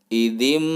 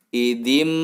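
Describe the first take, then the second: The two takes are said the same way.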